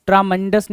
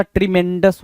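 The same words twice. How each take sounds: First: ट्रामेंडस with TRAA as the first syllable; wrong pronunciation. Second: ट्रीमेंडस with TRI as the first syllable; correct pronunciation. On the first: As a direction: say ट्रामेंडस with an open "aa" after tr. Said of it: "ट्रामेंडस नहीं होता". (ट्रामेंडस, शुरू में "ट्रा" वाला गलत उच्चारण) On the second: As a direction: say ट्रीमेंडस as tri-MEN-dus. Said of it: "ट्रीमेंडस होता है". (ट्रीमेंडस, शुरू में "ट्री" वाला सही उच्चारण) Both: Shown as a demonstration.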